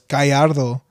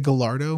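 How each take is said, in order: First: The name is said with a Spanish pronunciation. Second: The name is said with an English pronunciation. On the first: It is the name's original form. The speaker calls it right. "no, it's Gallardo" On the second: It is said to suit English speakers. The speaker calls it wrong.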